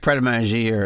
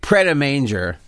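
First: The name has a French-like pronunciation. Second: The name has an Americanized pronunciation. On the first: The speaker calls it right. "I heard it's like Pret a Manger or something" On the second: The speaker calls it wrong. "I know it's not the proper pronunciation"

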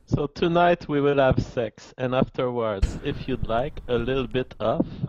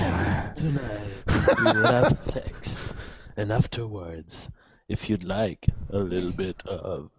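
First: It is said at a normal pace. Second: It is said more slowly.

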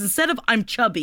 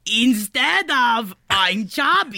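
First: Spoken in the speaker's own normal accent. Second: Spoken in a put-on heavy foreign accent.

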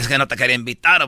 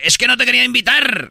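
First: It is said in a Salvadoran accent. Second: It is said in a Spanish accent.

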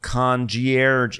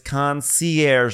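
First: The word is pronounced in a mangled, anglicized way. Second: The word is pronounced the French way. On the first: This is the mistaken form someone else used. The speaker calls it wrong. "not concierge" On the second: This is the proper form of the word. The speaker calls it right. "It's a French word"

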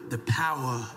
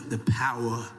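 Both takes have the same delivery.

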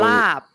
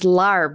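First: The word is said without an r sound. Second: The word is said with an r sound. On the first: The speaker calls it right. "English speakers with British accents saying lap, and it's fine" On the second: The speaker calls it wrong. "they pronounce the R, and it becomes larb, which is totally wrong"

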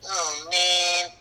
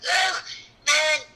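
First: The voice sounds sad and downcast. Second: The voice sounds strained, as if in pain. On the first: The character is unhappy. "or sad" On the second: The character is straining and hurting. "there's a expression of pain on his face"

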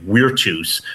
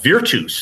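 First: The word begins with a W sound. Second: The word begins with a V sound. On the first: The speaker calls it wrong. "in the new pronunciation" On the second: The speaker calls it right. "which is called virtus"

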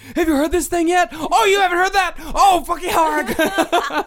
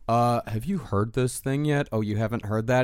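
First: It sounds eager and excited. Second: It sounds dismissive and snobbish.

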